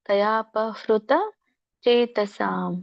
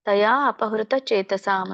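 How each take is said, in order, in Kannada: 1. ಇವು ಒಟ್ಟಿಗೆ tayapahrita ಎಂದು ಓದಬೇಕು. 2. taya apahrita ಎಂದು ಬೇರೆ ಮಾಡಿ ಓದಬೇಕು.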